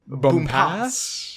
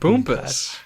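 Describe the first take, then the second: First: The last syllable has an open 'ass' vowel. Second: The last syllable has a reduced 'us' vowel. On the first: It is read just as it is spelled. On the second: It is an alternative way to say the name.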